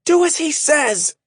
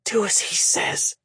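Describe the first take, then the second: First: High, loud commanding shout; Shay shouting the order to the men. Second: Breathless whisper; Shay whispering to the men at first. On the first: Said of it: "Then she shouted". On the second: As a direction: breathe it, barely voiced. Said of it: "Shay whispered". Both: A narrator's reading.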